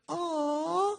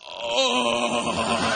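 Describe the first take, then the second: First: It is said in a soft, smooth voice. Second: It is said in a coarse, rough voice.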